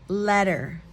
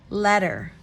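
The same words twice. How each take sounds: Both takes have the same delivery.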